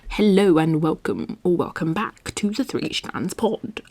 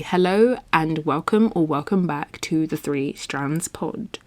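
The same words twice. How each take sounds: First: It is said in an unusual put-on voice. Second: It is said in a natural everyday voice. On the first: "I don't know why I'm talking like this" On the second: "but seriously"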